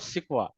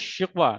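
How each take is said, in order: First: The word begins with an 's' sound. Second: The word begins with a 'sh' sound. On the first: The speaker calls it wrong. "Not सिकवा" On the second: The speaker calls it right. "शिकवा that means शीन आएगा, S H वाली आएगी"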